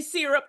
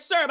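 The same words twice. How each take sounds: First: "syrup" said as "SEER-up", first vowel like "see"; other syrup. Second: "syrup" said as "SUR-up", first vowel like "her"; her own syrup. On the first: Speaker contrasting the pronunciation she did not use, "SEER-up". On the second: Speaker showing her own way of saying it, "SUR-up". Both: Shown as a demonstration. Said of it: "I said syrup. I didn't say syrup".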